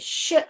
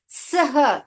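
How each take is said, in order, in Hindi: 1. एक ही फुसफुसाती हुई 'श' ध्वनि सुनाई देती है। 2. s और h अलग-अलग बोले जाते हैं। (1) "इसका ध्वनि ही बदल रहा है" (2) "सह नहीं बोलते हम"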